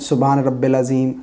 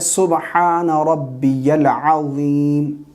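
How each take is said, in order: First: The second word is said as rabbil. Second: The second word is said as rabbiyal. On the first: The speaker calls it wrong. "रब्बियल की जगह रब्बिल पढ़ते हैं" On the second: The speaker calls it right. "रुकू की तस्बीह है"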